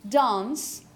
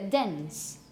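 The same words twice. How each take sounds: First: The vowel is the British broad a sound. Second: The vowel is close to an e sound. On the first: "So from a British uh" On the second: "you make it a dance, or something very close to a dance"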